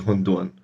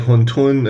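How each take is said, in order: First: The second syllable begins with a D sound. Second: The second syllable begins with a T sound. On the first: "this one can also be pronounced dun" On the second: "some people say huntun"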